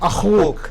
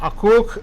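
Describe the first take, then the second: First: The middle consonant is a breathy h sound. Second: The middle consonant is a doubled k sound. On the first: The speaker calls it right. "ഹ ഹ അഹൂക്ക്" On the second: The speaker calls it wrong. "അക്കൂക്ക് എന്നല്ല പറയേണ്ടത്"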